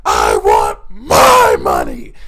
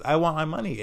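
First: Very loud, slow bellow, imitating a raging boss; imitated screaming boss. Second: Said in the usual way. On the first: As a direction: roar it with weight on MY. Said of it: "he would just yell and scream". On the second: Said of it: "And she goes".

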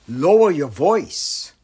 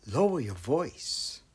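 First: Slow, louder and projected; firm quoted instruction. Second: Slow, soft, hushed repeat; lowered voice. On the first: Acted. Teacher quoting a footnote to students, firm and raised voice. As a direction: deliver the instruction out clearly, unhurried. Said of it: "the footnote says". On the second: Shown as a demonstration. Teacher showing students how to be quiet, lowered voice. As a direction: drop the volume and take your time.

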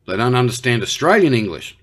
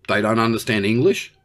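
First: AUSTRALIAN pushed up in pitch, then falling; stress on AUSTRALIAN. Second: ENGLISH rising at the end as a question; questioning disbelief. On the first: Australian clarifying which English they miss, stress on AUSTRALIAN. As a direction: punch AUSTRALIAN as the key word. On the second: Australian querying Xi about his experts, questioning disbelief. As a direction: ask it with the voice lifting on ENGLISH. Disbelief at being told of misunderstanding. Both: Acted.

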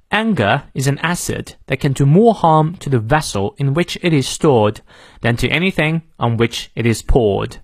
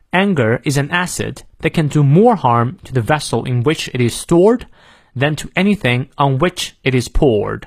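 First: British English with silent r in "harm", "stored", "poured"; British model sentence for learners; British pronunciation. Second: American English with r sounded in "harm", "stored", "poured"; American model sentence for learners; American pronunciation. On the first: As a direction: read it clearly in a non-rhotic British accent. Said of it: "英式发音元音后的R不念". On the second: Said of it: "美式发音我们来过两遍". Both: Shown as a demonstration.

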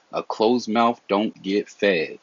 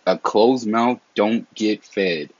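First: A closed mouth don't get fed, each word slow and weighted; slow proverb. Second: A closed mouth don't get fed, slow with a falling end; slow proverb again. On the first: Vlogger tells his viewers a Southern saying, slow and weighted. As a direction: lay the saying down slowly. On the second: Vlogger repeats the Southern saying to viewers, slow and emphatic. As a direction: repeat the saying slowly for weight. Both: Shown as a demonstration.

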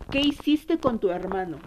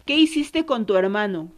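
First: Repeated demand. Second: A louder, shaken demand at her daughter; angry demand. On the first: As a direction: press the question a second time, easing off. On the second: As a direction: confront her hard, voice raised. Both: Retold or imitated. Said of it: "la agarré y la sacudí y le dije".

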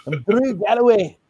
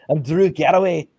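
First: Proud Scottish wrestler intro; Scottish accent. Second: Lightly Scottish wrestler intro, laughing; a hint of a Scottish brogue; Scottish accent. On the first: Retold or imitated. Host introduces himself in a Scottish accent. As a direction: announce the name with a Scottish lilt. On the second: Host slips into a mild Scottish accent. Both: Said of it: "in a Scottish accent".

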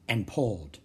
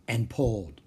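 The two takes are said the same way.

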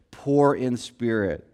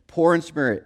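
First: Slow, low emphasis. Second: Said in the usual way. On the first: Shown as a demonstration. Preacher repeating the key phrase to the congregation, slow and low. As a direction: drop low and slow down on poor in spirit. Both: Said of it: "repeated for emphasis".

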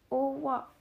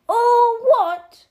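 First: Said in the usual way. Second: Huge high-pitched roar; thundering. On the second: A narrator's reading. Giant erupts at the boy's ignorance, thundering. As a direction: thunder it out at full outrage. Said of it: "Harry thundered".

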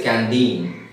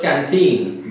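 First: "canteen" said as can-deen. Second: Said in the usual way. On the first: Shown as a demonstration. Teacher mimics Kerala speakers, "canteen" with d for t. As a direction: soften the t of "canteen" to d. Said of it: "they say canteen". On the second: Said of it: "Instead of canteen".

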